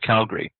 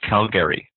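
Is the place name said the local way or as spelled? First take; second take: local; as spelled. First: It is said the way locals say it. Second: It is said exactly as it is spelled. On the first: The speaker grew up in the area. "for those of us who grew up around there" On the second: The speaker is from another province. "They pronounce it the way it's written"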